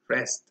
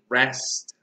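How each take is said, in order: First: The vowel is a weaker, Spanish-style E. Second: The vowel is a stronger, English-style E. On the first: "in Spanish we would say rest" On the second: "In English you really need to... get into character and say"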